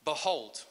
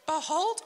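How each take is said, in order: First: Said in the usual way. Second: Squeaky high peeping chick; shrill high little chick peep; chick's voice. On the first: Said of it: "So this is God's word". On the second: Pretend. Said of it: "I'll just put on a chick's voice".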